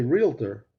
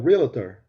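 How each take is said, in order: First: Realtor slowly as REEL-ter; careful two-beat "reel-ter" for realtor; correct pronunciation. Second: Realtor with an extra syllable, REAL-uh-ter; mispronounced realtor. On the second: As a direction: mimic the wrong realtor, "ree-luh-ter". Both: Shown as a demonstration. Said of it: "not pronouncing the word right".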